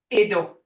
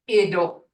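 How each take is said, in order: No difference in how they are said.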